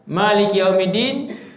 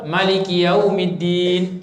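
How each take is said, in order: First: The first vowel 'ma' is held long. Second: The first vowel 'ma' is kept short.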